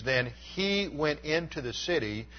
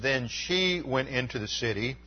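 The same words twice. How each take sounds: First: "he" marked and brought down firmly; the right reading, settling on "he"; correct reading with he. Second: "she" lifted with a rising tune; the rejected reading, leaning on "she"; wrong reading with she. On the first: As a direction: stress on he, falling. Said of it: "It reads". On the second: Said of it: "it should be translated, "he". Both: Shown as a demonstration.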